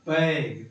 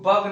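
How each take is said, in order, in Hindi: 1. स्वर 'bag' जैसा लगता है। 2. स्वर 'bug' जैसा लगता है। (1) "क्या पढ़ेंगे? बैग" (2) "इसको बग नहीं पढ़ेंगे"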